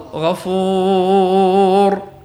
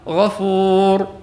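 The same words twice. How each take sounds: First: The long vowel is held for four counts. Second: The long vowel is held for two counts. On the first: "هي أربع حركات" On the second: "حركتان"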